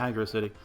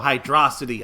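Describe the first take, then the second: First: It is said as two words, hydro and city. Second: It is said as one word rhyming with atrocity.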